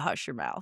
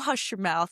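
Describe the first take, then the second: First: It is said in a firm, stern tone. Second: It is said in a light, laughing tone. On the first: Stop talking right now. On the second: Don't say something so silly.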